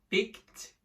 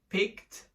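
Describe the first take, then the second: Both takes have the same delivery.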